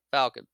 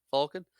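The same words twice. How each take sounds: First: "Falcon" with the short a of cat, firmly; pronounced FAL-kin. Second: "Falcon" with an open aw, questioning; pronounced FAWL-kin. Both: Shown as a demonstration. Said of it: "I'm not saying it differently".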